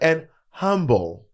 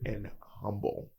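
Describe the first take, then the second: First: The voice is light with no rumble. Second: The voice has a low, rumbling depth. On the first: This is how the voice sounded years ago. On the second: This is how the voice sounds now.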